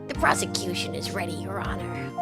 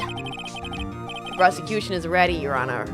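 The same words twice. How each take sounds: First: It is said in an exaggeratedly nerdy voice. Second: It is said in a mildly nerdy voice.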